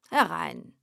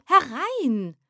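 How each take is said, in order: First: Said in the usual way. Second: Second call, raised high and louder; louder, higher call. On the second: Acted. Poet eagerly calls the visitor in, louder and higher. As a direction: call it out again, more eager.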